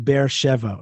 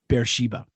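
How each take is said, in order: First: The name has a Hebrew pronunciation. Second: The name has an English pronunciation.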